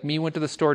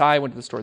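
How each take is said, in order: First: Said in the usual way. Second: "I" given the weight, falling tune; stress on I. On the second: Shown as a demonstration. Teacher contrasts the correct pronoun for students. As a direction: lean on "I" as the right word. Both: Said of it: "No, it's".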